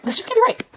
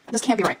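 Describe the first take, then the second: First: Pitched far up in disbelief; incredulous high cry. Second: Said in the usual way. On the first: Real, not acted. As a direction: squeal it like you can't believe it.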